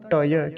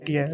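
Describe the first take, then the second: First: A full vowel comes between the t and y. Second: The t joins straight onto y with no vowel. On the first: The speaker calls it right. "ट्य नहीं होता, टय, क्योंकि ट पूरा है" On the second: The speaker calls it wrong. "कुछ लोग इसका उच्चारण कैसे करते हैं, ट्य कह देते हैं"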